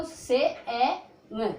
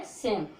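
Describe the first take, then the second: First: से ए म in slow, separate sounds; sounded out. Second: Said in the usual way. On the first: Shown as a demonstration. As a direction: break सेम into से, ए, म with no final e. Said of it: "ई को नहीं बोलेंगे". (से ए म, धीरे-धीरे तोड़कर) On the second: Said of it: "तो क्या है सेम".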